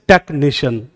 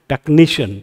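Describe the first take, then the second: First: The stress is on the first syllable. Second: The stress is on the second syllable. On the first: The speaker calls it wrong. "कभी बोलते हैं ऐसे technician? नहीं बोलते।" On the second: The speaker calls it right. "कैसे बोलते हैं? ... Second last हो गया, यहां स्ट्रेस आ गया।"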